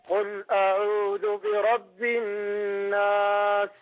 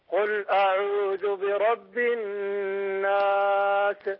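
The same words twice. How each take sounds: No difference in how they are said.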